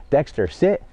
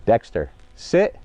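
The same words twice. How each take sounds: First: Said in the usual way. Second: Clear separate command. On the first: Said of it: "what a lot of people do is everything's together". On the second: Shown as a demonstration. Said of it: "Then I give the hand signal after".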